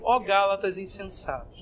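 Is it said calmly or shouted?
calmly. It is said calmly, in a reverent reading tone.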